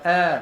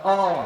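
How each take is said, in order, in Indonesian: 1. Vokalnya condong dan tipis. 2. Vokalnya biasa, tidak condong ke tipis. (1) "Dia kata a. Maka yang tu nipis" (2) "Dia tak kata a"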